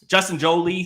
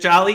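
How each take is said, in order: First: The name sounds like the surname Jolie. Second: The name sounds like the word jolly. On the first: "pronounce that like like Angelina Jolie?" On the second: "Is it Jolly?"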